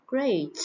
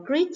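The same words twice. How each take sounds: First: "Great" with an ay vowel, falling; correct ay vowel. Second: "great" with an ee vowel, like greet; mispronounced vowel. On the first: Teacher modelling for students, "Great" with an ay vowel. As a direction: say "Great" as grayt. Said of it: "Từ này các bạn phải đọc là great nhé". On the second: Teacher showing students' mistake, "great" said as greet. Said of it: "Nhiều bạn đọc là great là sai nhé". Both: Shown as a demonstration.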